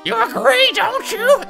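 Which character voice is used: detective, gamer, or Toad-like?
Toad-like. It is a put-on voice resembling Toad. The speaker calls it wrong. "that's too close to Toad"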